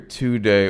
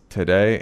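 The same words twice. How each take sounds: First: The first syllable has a full 'oo' vowel. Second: The first syllable is reduced to a quick t. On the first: The speaker calls it wrong. "you don't hear today" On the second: The speaker calls it right. "it's today"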